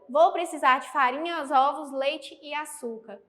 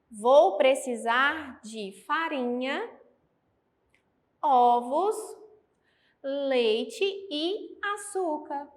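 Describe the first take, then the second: First: The items run together without pauses between them. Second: Short pauses separate each item in the list. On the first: The list reads confusingly, as if words merge. The speaker calls it wrong. "Se eu não tivesse essas vírgulas empregadas aqui, ficaria" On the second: Each item is clearly a separate thing needed. The speaker calls it right. "para que possamos perceber a pausa da vírgula"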